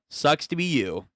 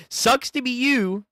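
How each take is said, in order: First: Said in the usual way. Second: Sing-song high taunt; mocking high taunt. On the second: Taunt repeated.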